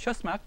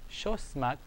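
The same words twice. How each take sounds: First: Quick, high "Shosmak"; said fast. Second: Said in the usual way. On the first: Shown as a demonstration. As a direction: run it together quickly at a raised pitch. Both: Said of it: "They say it fast".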